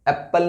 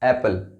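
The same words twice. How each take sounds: First: The p sound is pronounced twice, doubled. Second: The p sound is pronounced once, single. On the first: The speaker calls it wrong. "एप्पल नहीं है ये" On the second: The speaker calls it right. "उसको एक बार ही pronounce किया जाता है"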